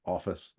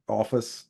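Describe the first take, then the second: First: "Office." dropped low and soft, ironic air quotes. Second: Said in the usual way. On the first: Shown as a demonstration. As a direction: say "Office." softly and lower, mockingly. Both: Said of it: "I did air quotes around office there".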